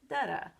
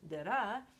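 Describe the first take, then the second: First: The stress is on the first syllable. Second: The stress is on the second syllable. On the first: This is the reversed rhythm, as in bacon. "like that word bacon that I said before" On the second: This is the iamb rhythm. "instead of using da-da"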